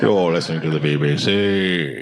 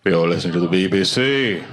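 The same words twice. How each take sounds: First: A second, deeper go at the BBC voice; mock BBC announcer. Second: Low, plummy British announcer voice, imitated; mock BBC announcer. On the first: Comic repeating BBC announcer line, deeper mock British. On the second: Comic imitating BBC radio announcer, mock British accent. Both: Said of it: "I do listen to B B C News".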